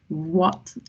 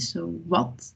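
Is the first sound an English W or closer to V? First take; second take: English W; closer to V. First: It starts with an English W sound. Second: It starts with a sound close to V. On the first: The speaker calls it wrong. "we don't really say like what, like the English one" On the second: The speaker calls it right. "more slightly similar to the V"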